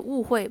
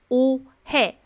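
First: The first vowel is an 'oo' with protruding lips. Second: The first vowel is a tense, rounded 'oh'. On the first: The speaker calls it wrong. "它的发音不是误会" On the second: The speaker calls it right. "而是误会，哦哦哦"

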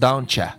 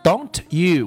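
First: The word 'you' is reduced to a short 'ya'. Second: The word 'you' is pronounced fully and clearly. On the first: "会读成don't ya" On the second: "don't you"

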